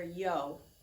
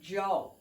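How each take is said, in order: First: The word begins with a soft y sound. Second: The word begins with a j-like sound. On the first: This is the standard form being taught. The speaker calls it right. "for the most part, you're going to hear yo" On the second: This is how it sounds in some regions. The speaker calls it wrong. "In certain regions, in certain areas, they would say Joe"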